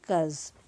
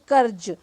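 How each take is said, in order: First: The consonant is said soft, Urdu-style. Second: The consonant is said hard, without softening. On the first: The speaker calls it right. "लेकिन कर्ज ऐसे" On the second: The speaker calls it wrong. "जैसे कर्ज लेकिन"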